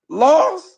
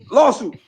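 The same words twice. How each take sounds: First: It is said slowly. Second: It is said very fast.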